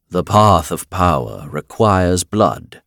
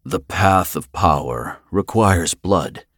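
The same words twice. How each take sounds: First: Slow, louder voice of a blood totem; lightly voiced serpent, words drawn out; blood-snake pronouncement. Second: Slow, solemn intoning; intoned. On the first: Blood snake proclaims the price of power, slow and solemn. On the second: Finn claims his prize before the totems, slowly intoned. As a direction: intone it word by word, drawn out. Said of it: "he intoned". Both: A narrator's reading.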